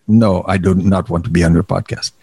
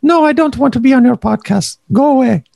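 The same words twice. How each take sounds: First: Low, put-on voice for the wife; low-voiced wife impression. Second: Much higher, put-on refusal; higher-voiced wife impression. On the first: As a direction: voice her refusal in a deep mock voice. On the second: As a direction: mimic the wife high-pitched, shooing someone off. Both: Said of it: "she doesn't have a really low voice".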